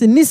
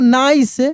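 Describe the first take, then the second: First: The vowel is a short i sound. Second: The vowel is an 'ai' diphthong. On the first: The speaker calls it wrong. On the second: The speaker calls it right.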